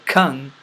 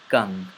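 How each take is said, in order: First: The k is released with a puff of air. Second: The k is released without a puff of air. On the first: The speaker calls it wrong. "I didn't say kung" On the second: The speaker calls it right. "I said kung"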